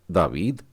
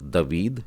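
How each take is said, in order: First: दावीद with a long first aa, DAA-veed; दावीद said with a lengthened first vowel, rising; long a reading. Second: दवीद with a short first a, da-VEED; the short-vowel option दवीद; दवीद, first vowel kept brief; short a reading. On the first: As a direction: stretch the aa in दावीद. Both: Shown as a demonstration. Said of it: "आपने इसे क्या पढ़ा?".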